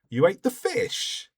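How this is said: The voice rises on the last word. It is a question. "changing the tone of my voice on the last word"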